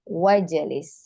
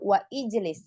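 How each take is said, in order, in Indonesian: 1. Wa langsung masuk ke jlis tanpa vokal. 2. Ijlis diucapkan dengan vokal awalnya sendiri. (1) "Wa langsung masuk ke jim sukun" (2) "La la, hadza khata'"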